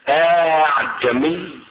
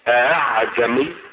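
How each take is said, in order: First: The vowel between the two glottal stops is lengthened. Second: The second glottal stop is softened, not fully closed. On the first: "بمد الهمزة الثانية" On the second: "بتسهيل الهمزة الثانية"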